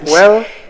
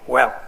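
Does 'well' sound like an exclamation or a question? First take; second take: question; exclamation. First: It is said with a questioning, rising tune. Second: It is said as a sharp, falling exclamation. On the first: The speaker is asking something. "that's some kind of a question mark" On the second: The speaker is exclaiming.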